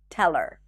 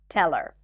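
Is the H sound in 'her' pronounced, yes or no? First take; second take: no; no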